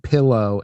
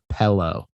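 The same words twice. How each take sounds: First: It is said in a regional Midwestern pronunciation. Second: It is said in a standard, fuller pronunciation. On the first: The speaker calls it wrong. "one that's been really hard for me to break" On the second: The speaker calls it right. "instead of"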